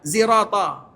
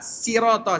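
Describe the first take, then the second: First: The word begins with a z sound. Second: The word begins with a plain, light s sound. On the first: "Ada mereka baca huruf za" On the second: "huruf sin"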